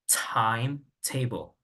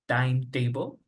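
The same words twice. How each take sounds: First: The T sounds are strong and forcefully released. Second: The T sounds are soft and weakly released. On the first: The speaker calls it right. "the T is, is pronounced with more stress than in Spanish" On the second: The speaker calls it wrong. "instead of saying timetable"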